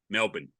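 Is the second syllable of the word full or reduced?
reduced. The second syllable is clipped and run together. The speaker calls it right. "and it's M E L B N, Melbourne. You know, that's that's the way we say it"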